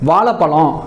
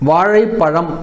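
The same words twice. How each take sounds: First: The consonant after 'vaa' is a plain l. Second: The consonant after 'vaa' is a retroflex zh. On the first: "அந்த ழ உச்சரிப்பு ல அப்படின்னு வரும்" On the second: "வாழைப்பழம் அப்படின்றதான் சரியான ஒரு உச்சரிப்பு"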